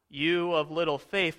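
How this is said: It sounds disappointed and rebuking. The listener is being scolded for failing. "What if it is not a disappointment that Jesus is speaking to Peter with?"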